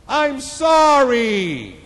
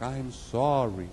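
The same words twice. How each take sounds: First: Loud, high, long apology; screamed out. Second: Slow, unraised echo reply; distant echo. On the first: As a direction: holler it out, stretching the words. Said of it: "He screamed out". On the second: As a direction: let it float back slowly. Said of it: "The voice came back". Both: Acted.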